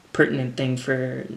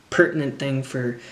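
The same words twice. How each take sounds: The two takes are said the same way.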